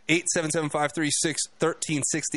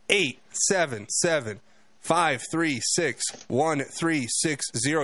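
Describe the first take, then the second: First: The number is said at normal speed. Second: The number is said slowly.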